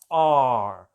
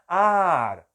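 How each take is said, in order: First: The vowel is deep and heavy in the throat. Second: The vowel is made forward in the mouth. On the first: The speaker calls it right. "é aqui, ó ... mais grave, mais pesado, mais na garganta" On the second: The speaker calls it wrong. "Não faz aqui, ó"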